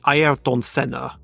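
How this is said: The name is said with a Brazilian pronunciation. "I believe in Brazilian it's basically Ayrton Senna"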